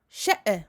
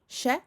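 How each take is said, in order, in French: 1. La fin rebondit avec un son d'écho supplémentaire. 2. La voyelle se termine ouverte, sans coupure. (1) "ici je forme une qalqala. Et il ne faut pas faire ça" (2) "il n'y a pas de hamza"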